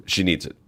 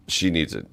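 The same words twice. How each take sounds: The two takes are said the same way.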